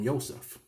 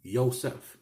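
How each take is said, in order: First: The name begins with a Y sound. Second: The same.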